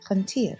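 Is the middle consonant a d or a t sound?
t. The middle consonant is a t sound. This is the Western dialect form. "Western Armenian pronunciation is t for this letter"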